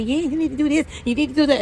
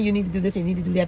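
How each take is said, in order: First: Bossy know-it-all advice, higher and louder; imitating a nosy sales rep; pushy chatty rep. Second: Said in the usual way. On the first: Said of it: "one of those chatty patties". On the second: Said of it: "somebody was telling me".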